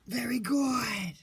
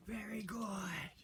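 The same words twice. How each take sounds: First: Slow, high, loud praise; loud excited praise. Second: Slow breathy whisper of praise; hushing a pet. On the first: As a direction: cheer the dog on warmly. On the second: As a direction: whisper it so the dogs stay calm. Hushing reactive dogs mid-training. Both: Real, not acted.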